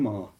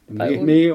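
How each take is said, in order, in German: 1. Der Vokal klingt wie 'ah'. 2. Der Vokal klingt wie 'eh'. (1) "Also Ma ist älter" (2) "Das ist der Mäh"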